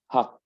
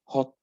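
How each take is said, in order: First: It is said in an American accent. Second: It is said in a British accent. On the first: "then American" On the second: "British first"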